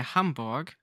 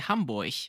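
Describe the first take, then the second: First: It is said with standard German pronunciation. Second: It is said in the Hamburg German accent.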